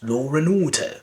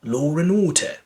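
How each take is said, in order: First: An R sound links law to and. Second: The same.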